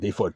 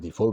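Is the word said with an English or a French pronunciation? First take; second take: English; French. First: It is pronounced the English way. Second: It is pronounced the French way. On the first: The speaker calls it right. "default, hein" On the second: The speaker calls it wrong. "pas défaut"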